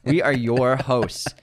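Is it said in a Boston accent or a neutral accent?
neutral. Said carefully in a flat, neutral accent.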